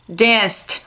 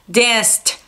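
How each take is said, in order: Both takes have the same delivery.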